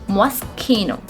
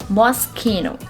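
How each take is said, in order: The two takes are said the same way.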